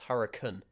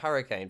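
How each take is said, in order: First: The word is said with a British pronunciation. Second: The word is said with an American pronunciation. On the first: "some people in my country, in the in the U K, pronounce it as hurricane" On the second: "America you pronounce it hurricane"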